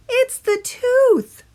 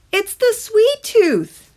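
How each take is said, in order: First: High, very slow tooth creature; drawn-out squeaky voice of a talking tooth; eerie tiny tooth speaking slowly, a bit louder. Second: High, slow little tooth creature; drawn-out squeaky voice of a talking tooth; eerie tiny tooth speaking slowly; sweet tooth voice. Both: A narrator's reading.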